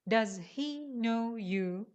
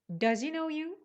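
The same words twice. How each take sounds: First: Each word is said separately without linking. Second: The first two words run together smoothly. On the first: The speaker calls it wrong. "If you're a beginner, you read this sentence like this" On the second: The speaker calls it right. "They link he to does and say does he"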